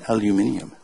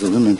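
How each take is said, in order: First: It is said the British way, five syllables. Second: It is said the American way, four syllables.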